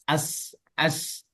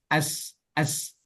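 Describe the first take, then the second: Both takes have the same delivery.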